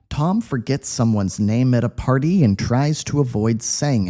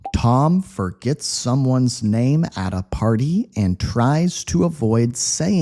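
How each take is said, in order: First: The sentence is read at a quick pace. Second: The sentence is read at a slow pace. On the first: "Quick speed" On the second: "slow read"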